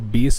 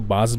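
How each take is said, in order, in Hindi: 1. इसका स्वर 'case' में 'ay' जैसा सुनाई देता है। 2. इसका स्वर 'glass' में 'ah' जैसा सुनाई देता है। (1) "एक टर्म होती है जिसको बेस बोलते हैं" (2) "बहुत सारे लोग उसको बास भी बोलते हैं"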